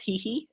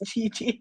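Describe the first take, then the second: First: Each syllable starts with an h sound. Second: Each syllable starts with a j sound. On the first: "if you're gonna pronounce it, it's hee hee" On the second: "but it's G G actually"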